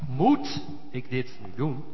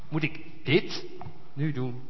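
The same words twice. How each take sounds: First: The stress falls on the word moet. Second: The stress falls on the word dit.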